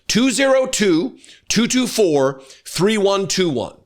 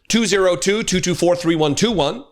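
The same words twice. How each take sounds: First: The number is read at a slow pace. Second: The number is read at a normal pace.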